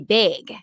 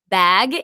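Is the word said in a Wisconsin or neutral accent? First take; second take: Wisconsin; neutral. First: It is said with a Wisconsin accent vowel. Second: It is said with a neutral vowel.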